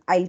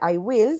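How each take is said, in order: First: The two words merge into one syllable. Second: Both words are said in full. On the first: "you can use the contraction" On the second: "en vez de decir I will"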